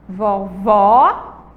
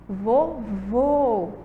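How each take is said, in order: First: Vovó with open ó, said loud. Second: Vovô with closed ô, said soft. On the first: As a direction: contrast Vovó's open ó with vovô. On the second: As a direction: close the ô of vovô against vovó. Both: Shown as a demonstration. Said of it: "Tem um som aí mais fechado".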